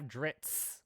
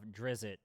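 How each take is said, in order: First: The name is said as one short syllable. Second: The name is said with an added vowel, two syllables.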